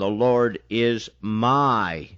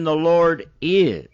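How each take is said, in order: First: The stress is on the word my. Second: The stress is on the word is.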